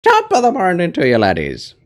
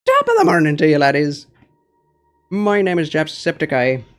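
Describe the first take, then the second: First: High, loud Irish greeting; Jacksepticeye impression. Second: Loud, high-pitched Irish yell; Jacksepticeye impression. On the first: Viewer asks for a Jacksepticeye, loud high Irish greeting. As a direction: belt it out like Jacksepticeye. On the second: Second try at the Jacksepticeye greeting for chat, loud and high. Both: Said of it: "Do a Jacksepticeye".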